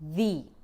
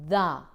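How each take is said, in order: First: It uses the form said before vowels. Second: It uses the form said before consonants. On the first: The next word starts with a vowel. "Whenever the comes before a vowel, a word that starts with a vowel, we say the" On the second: The next word starts with a consonant. "whenever a word that starts with a consonant comes, we use the pronunciation the"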